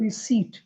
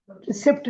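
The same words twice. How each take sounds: First: रिसीट as ri-SEET; long ee, no p in रिसीट; correct pronunciation. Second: रिसिप्ट with an audible p; short vowel in रिसिप्ट, ri-SIPT; wrong pronunciation. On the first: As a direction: model रिसीट cleanly. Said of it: "correct pronunciation है". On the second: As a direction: show the mistaken रिसिप्ट. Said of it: "रिसिप्ट नहीं". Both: Shown as a demonstration.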